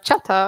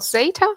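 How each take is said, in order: First: The name is said in a Spanish-style way. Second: The name is said the company's usual way. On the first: "I think it's in Spanish. They can even say it like chata" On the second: "That's how we pronounce it"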